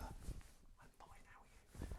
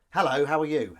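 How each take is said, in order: First: Very soft, voiceless whispered line. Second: Loud, higher demo cue; cue line aloud. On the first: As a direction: whisper your own reply to the cue. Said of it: "And then you'd whisper". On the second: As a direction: say the other character's line out clearly. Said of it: "You'd, you'd record". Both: Shown as a demonstration.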